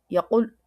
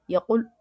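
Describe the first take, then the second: The two takes are said the same way.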